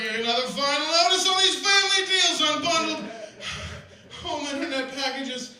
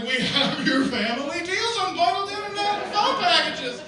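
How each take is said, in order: First: Building indignation with laughs; mounting mock outrage. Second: High, loud, laughing ad voice; overexcited ad read. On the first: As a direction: read the letter like it's an insult. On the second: Retold or imitated. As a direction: ham up the junk mail pitch. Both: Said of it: "I got real into that last one".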